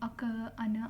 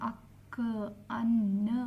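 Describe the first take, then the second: First: The middle consonants are short and light. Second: The middle consonants are doubled and held long. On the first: The speaker calls it wrong. "ಲೈಟಾಗಿ ಅಕ ಅನ ಅನ್ನಲ್ಲ" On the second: The speaker calls it right. "ಅವಕ್ಕೆ ಸ್ವಲ್ಪ ಒತ್ತು ಕೊಡ್ತೀವಿ"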